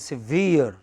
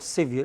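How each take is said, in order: First: The stress is on the second syllable. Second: The stress is on the first syllable. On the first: The speaker calls it right. "it is severe" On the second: The speaker calls it wrong. "It is not severe"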